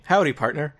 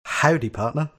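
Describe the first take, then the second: First: Hammed-up American "howdy partner", pitched higher; American accent demo. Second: Tentative copy of an American accent, pitched higher; attempted American accent. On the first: Self-appointed dialogue coach models American for [name], hammed-up American accent. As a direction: put on a cowboy-style American accent. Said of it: "repeat after me". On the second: [name] repeats after his mock dialogue coach, attempted American accent. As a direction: have a go at an American "howdy". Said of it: "[name], repeat after me". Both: Shown as a demonstration.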